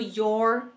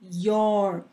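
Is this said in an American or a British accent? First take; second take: American; American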